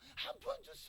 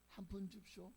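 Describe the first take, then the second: First: It is said in a louder voice. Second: It is said at normal, quieter volume.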